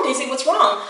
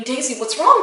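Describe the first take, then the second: First: Falling, anxious retold plea; worried repeating. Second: Rising, anxious call to the dog; retold panicky plea, question going up; worried repeating. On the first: Owner to her sick dog, helpless falling plea. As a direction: repeat it helplessly, tune dropping at the end. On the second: Owner to her sick dog, worried rising plea. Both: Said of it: "but I kept repeating".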